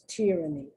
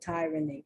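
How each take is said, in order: First: The first vowel is a short 'i' sound. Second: The first vowel is a long 'eye' sound. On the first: The speaker calls it right. "the correct pronunciation is tyranny" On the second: The speaker calls it wrong. "You hear people pronounce it tyranny"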